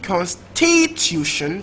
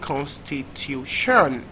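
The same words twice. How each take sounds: First: The stress is on the second syllable. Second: The stress is on the fourth syllable. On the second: "last syllable"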